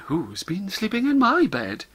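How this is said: It is said in a kind, polite voice. "In a kind, polite voice"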